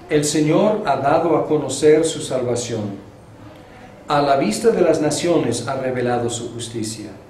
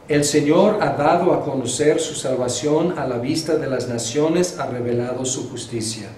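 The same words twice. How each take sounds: First: There is a clear pause after "salvación". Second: It runs on without a clear pause.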